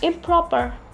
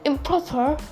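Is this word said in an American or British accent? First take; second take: American; British. First: It is said in an American accent. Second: It is said in a British accent. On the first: "In America they say improper" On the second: "In British they say improper"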